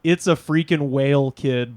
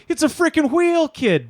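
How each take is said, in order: First: Said in the usual way. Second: High Boston cry, whale squeezed into "wheel". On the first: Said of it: "he's trying to say". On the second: Retold or imitated. Imitating the fisherman who means whale, "wheel" pronounced high. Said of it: "it sounds like he's saying wheel".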